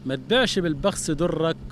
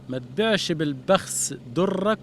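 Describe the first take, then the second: First: The words are run together and unclear. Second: Each sound is articulated distinctly and clearly. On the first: The speaker calls it wrong. "انت قلتها مش باينه" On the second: The speaker calls it right. "عايزك تبين مخارج الحروف"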